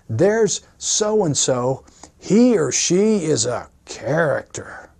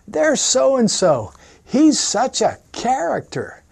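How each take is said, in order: First: It sounds wary and disapproving. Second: It sounds fond and amused.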